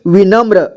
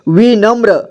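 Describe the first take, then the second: First: Said in the usual way. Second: विनम्र as वि, then नम्र; syllable by syllable. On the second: Shown as a demonstration. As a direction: sound out विनम्र in parts. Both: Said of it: "इसे क्या पढ़ेंगे".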